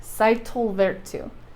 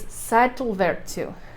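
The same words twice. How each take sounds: First: The double L sounds like TL. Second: The same.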